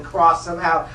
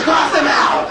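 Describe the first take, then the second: First: Said in the usual way. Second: Loud, higher shouted order. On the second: Retold or imitated. A classmate shouts the order to cross the kid out. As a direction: bark it like a final verdict.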